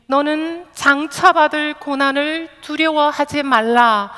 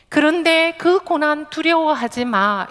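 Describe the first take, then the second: First: 장차받을 pushed up and a little louder; stress on 장차받을. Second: 두려워하지 마 lifted and punched as the heart of it; stress on 두려워하지 마. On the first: Preacher testing where Jesus' stress falls, stress on 장차받을. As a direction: lean on 장차받을, not on 두려워하지. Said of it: "예수님의 강세가 어디 있을까요". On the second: Preacher showing Jesus' real stress, firm weight on 두려워하지 마. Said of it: "예수님의 강세는 그 고난을 두려워하지 마". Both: Shown as a demonstration.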